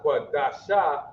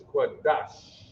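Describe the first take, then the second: First: QUADASHA ending in a full "SHAH" syllable; extra final vowel. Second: QUADASH ending on a drawn-out sh with no vowel; soft sh ending. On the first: Teacher showing the class what it's not, QUADASHA with a full shah. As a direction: say QUADASHA in three beats, qua-da-shah. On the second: Teacher correcting the reading, QUADASH ending in bare long sh. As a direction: stop QUADASH on a long breathy "sh". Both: Shown as a demonstration. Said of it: "So it's not Quadasha".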